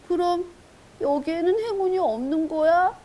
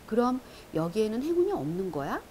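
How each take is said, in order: First: It is read with strong emotion, acted out. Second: It is read in a plain, neutral narrating voice. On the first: It is performed as a voice actor playing the character. "감정을 이입하면 이렇게 되는 거예요" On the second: It is read as a book narrator. "그 북 내레이터가 되어서 읽은 거고요"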